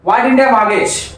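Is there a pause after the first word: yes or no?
no. It runs on with no pause after the first word. It asks which things were not mortgaged. "Gap ఇవ్వలేదు, వాటికి డింటికి gap ఇవ్వని చదువుతున్నాం"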